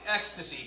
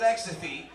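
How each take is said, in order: First: Said in the usual way. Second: "ecstasy" with a th for the second s; lisped slip. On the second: Real, not acted. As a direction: lisp the end of "ecstasy". Slips, then says it again corrected.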